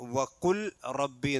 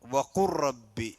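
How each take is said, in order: First: A clear L is heard before the R. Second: The L blends into the following R sound. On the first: The speaker calls it wrong. "വഖുൽ റബ്ബി എന്ന് പറയരുത്" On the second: The speaker calls it right.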